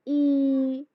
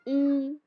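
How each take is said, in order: First: The vowel is stretched to two beats. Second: The vowel is short, one beat long. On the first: The speaker calls it wrong. "इस तरह नहीं पढ़ना दो हरकत के बराबर" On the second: The speaker calls it right. "सिर्फ एक हरकत पढ़ना है"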